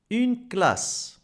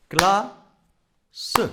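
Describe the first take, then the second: First: Said in the usual way. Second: "Classe" as cla, long pause, seu; cla... se for "Classe", clapping-drill style; tapped-out syllables. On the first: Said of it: "Combien de syllabes". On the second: Shown as a demonstration. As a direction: beat out "Classe" in two syllables, voicing the final e. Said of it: "tapez le mot classe".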